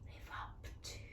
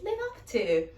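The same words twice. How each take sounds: First: It is whispered softly. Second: It is said in a happy tone.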